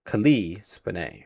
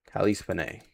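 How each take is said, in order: First: Cali as kuh-LEE, Spanay as spuh-NAY, slow; careful pronunciation. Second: Cali as KAL-ee, Spanay as spuh-NAY; trying a pronunciation. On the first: Streamer settling on an actress's name, careful pronunciation. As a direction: slowly sound out Cali with the weight on "lee". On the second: Streamer reading an actress's name, tentative pronunciation. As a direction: softly try Cali with a short "a" as in cat. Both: Shown as a demonstration. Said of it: "I think that's how you pronounce it".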